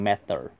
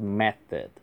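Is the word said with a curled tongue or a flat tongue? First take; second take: curled; flat. First: The word is said with a curled tongue. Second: The word is said with a flat tongue. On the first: The speaker calls it wrong. "不要读成method" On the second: The speaker calls it right. "没有卷舌"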